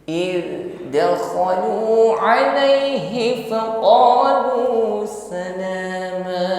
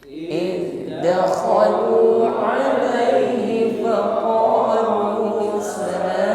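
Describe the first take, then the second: Both takes have the same delivery.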